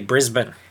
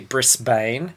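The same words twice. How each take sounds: First: The last syllable sounds like 'bin'. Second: The last syllable sounds like 'bane'. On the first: This is how locals say it. The speaker calls it right. "We say Brisbane. ... pronounced B-R-I-Z-B-I-N" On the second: This is how overseas visitors say it. The speaker calls it wrong. "we here don't say Brisbane, which is how it is spelt"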